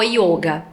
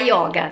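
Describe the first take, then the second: First: The first vowel is a closed o. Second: The first vowel is an open o. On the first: It keeps the original Sanskrit form. "a vogal O tem um som fechado, então o yoga" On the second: It is the Portuguese-adapted form. "ficou aportuguesado e virou a yoga"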